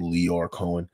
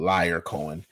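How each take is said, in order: First: The first name is said as Lior, ending in -or. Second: The first name sounds like the English word liar. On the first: This is how others say the name. "But they call him Lior Cohen" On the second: The person is called a liar. "I pronounce it as liar because he's a liar"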